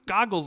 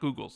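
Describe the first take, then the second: First: The first vowel sounds like in 'goggle'. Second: The first vowel sounds like in 'Google'. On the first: The speaker calls it right. "It's Goggles" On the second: The speaker calls it wrong. "not Google's"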